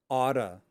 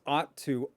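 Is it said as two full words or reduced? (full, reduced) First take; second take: reduced; full. First: The words blend into one reduced word. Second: Both words are said fully and separately. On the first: "they will pronounce ought to oughta" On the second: "They won't pronounce it in its full form"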